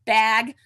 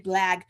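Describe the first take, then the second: First: Said in the usual way. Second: "blag" said with an extra L after the B; slip of the tongue. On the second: Real, not acted. Host stumbling over the bag name, saying "blag" with an L. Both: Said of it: "I always said blag".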